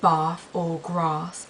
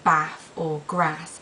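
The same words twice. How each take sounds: First: It has the long southern English vowel. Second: It has the short northern English vowel.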